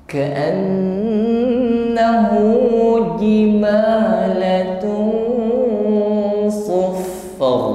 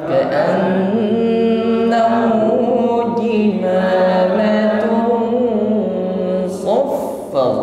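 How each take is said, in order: Both takes have the same delivery.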